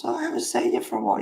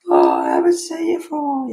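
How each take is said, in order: First: High, very fast breathy sing-song; mock neighbour greeting. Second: High, loud, fast sing-song neighbour voice; imitating a nosy neighbour in a high chirpy voice; mock neighbour greeting. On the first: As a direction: rattle off the neighbour's fake-friendly greeting. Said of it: "And then someone else". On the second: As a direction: send up the fake-friendly neighbour.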